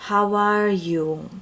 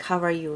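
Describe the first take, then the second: First: "How are you" with long, lingering vowels; elongated words. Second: Said in the usual way. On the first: Shown as a demonstration. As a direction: stretch out each word of "How are you". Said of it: "I'm gonna elongate this sentence". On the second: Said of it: "what word should I say".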